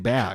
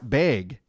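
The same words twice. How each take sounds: First: The vowel is said without a Wisconsin accent. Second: The vowel is said with a Wisconsin accent. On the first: "I tend to say bag" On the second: "people from Wisconsin were saying it's bag"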